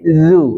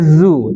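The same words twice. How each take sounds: First: The consonant sounds soft, made with the tongue tip. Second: The consonant sounds harsh and buzzing. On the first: The speaker calls it right. "tapi zu. Lembut lagi. Lebih ke ujung lidah lagi" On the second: The speaker calls it wrong. "Jangan pakai zu"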